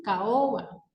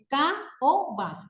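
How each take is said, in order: First: Said in the usual way. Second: "caoba" broken into three beats, ca, o, ba; split into syllables. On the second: Shown as a demonstration. Teacher divides the word for students, "caoba" in three separate syllables. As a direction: say "caoba" syllable by syllable with small gaps. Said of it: "a la hora de dividir la palabra es".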